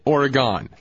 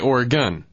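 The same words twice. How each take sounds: First: The name is pronounced the way outsiders say it. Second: The name is pronounced the way locals say it. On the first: The speaker is not from the place. "But you're not from Oregon, so you don't say that way. You say it Oregon" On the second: The speaker is from the place. "If you're from Oregon, you say Oregon"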